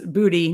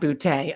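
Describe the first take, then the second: First: The name ends with an 'ee' sound. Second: The name ends with an 'ay' sound. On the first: The speaker calls it right. "says booty" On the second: The speaker calls it wrong. "not bootay"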